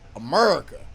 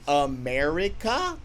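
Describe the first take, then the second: First: The word is squeezed into two syllables. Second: The word is said with all four syllables. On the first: The speaker calls it right. "you gotta say America. ... It's the emphasis on the uh. ... Two syllables" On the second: The speaker calls it wrong. "Instead of America"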